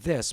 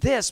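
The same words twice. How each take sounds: First: It is softer, quieter and lower in pitch. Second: It is louder, stronger and higher in pitch. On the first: This is ordinary conversation. "my conversational voice" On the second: This commands attention and respect. "my teaching voice"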